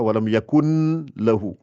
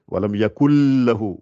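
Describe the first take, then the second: First: The N sound is clearly heard before lahu. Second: The N merges into the L without nasality. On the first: The speaker calls it wrong. "On ne dit pas walam yakun lahu" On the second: The speaker calls it right. "on n'entend pas le N ici"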